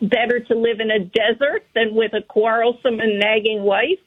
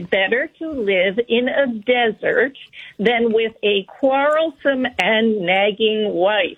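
First: It is read at a quicker pace. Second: It is read at a slower pace.

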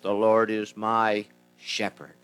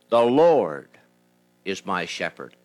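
First: The stress is on the word shepherd. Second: The stress is on the word Lord.

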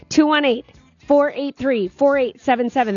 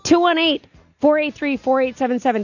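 First: The number is said slowly. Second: The number is said fast.

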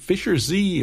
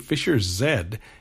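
First: The last letter is said as zee. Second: The last letter is said as zed.

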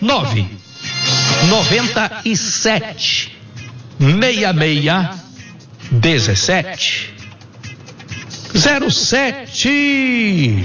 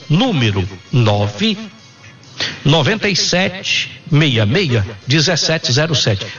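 First: It is said very slowly. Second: It is said at normal speed.

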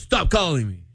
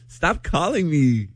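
First: It is said in a firm, serious tone. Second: It is said in a teasing, playful tone.

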